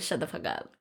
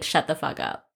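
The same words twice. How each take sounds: First: The words are run together as one word. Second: The words are said separately, sounding mean.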